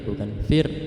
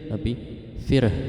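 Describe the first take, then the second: First: The word ends without an audible h sound. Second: The word ends with an audible silent h. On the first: The speaker calls it wrong. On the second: The speaker calls it right. "ada hak matinya"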